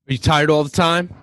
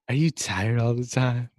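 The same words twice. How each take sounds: First: It is said in a harsh, angry voice. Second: It is said in a soft, gentle voice.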